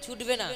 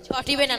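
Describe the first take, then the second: First: The verb has two syllables, 'chhutbe'. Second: The verb has three syllables, 'chhotibe'. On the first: The speaker calls it right. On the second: The speaker calls it wrong.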